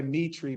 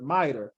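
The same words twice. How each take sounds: First: "mitri" with the ending said as a long ee; "mitri" ending in ee, not -er; mitri, the common way. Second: "mitre" said MY-ter; mitre, the right way. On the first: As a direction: say "mitri" the way people usually say it. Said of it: "people say mitri". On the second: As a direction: correct it to "mitre", ending in -er. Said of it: "but mitre". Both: Shown as a demonstration.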